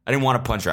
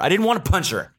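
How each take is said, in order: First: Said in the usual way. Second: High, emphatic didn't wanna; insistent denial. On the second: Shown as a demonstration. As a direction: protest too much on wanna. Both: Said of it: "I keep saying that".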